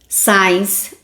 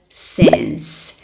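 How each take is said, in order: First: The vowel sounds like 'eye'. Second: The vowel is a short 'i'. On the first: The speaker calls it wrong. "os alunos amam falar signs" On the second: The speaker calls it right. "Nem sempre o nosso I de português... tem som de I"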